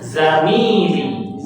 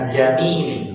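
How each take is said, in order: First: The word begins with a buzzing z sound. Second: The word begins with a j sound. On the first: The speaker calls it right. "Tetap di za" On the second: The speaker calls it wrong. "Bukan jamili"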